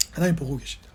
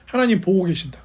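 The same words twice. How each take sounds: First: Soft, low and solemn; hushed repetition. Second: Said in the usual way. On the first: Real, not acted. Preacher repeating the psalmist's answer to the congregation, hushed and low. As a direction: let it drop low and quiet.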